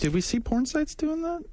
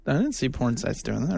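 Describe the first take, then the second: First: High, disbelieving question; surprised, pitch shooting up; incredulous. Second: Said in the usual way. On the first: Real, not acted. Questions a claim about porn sites.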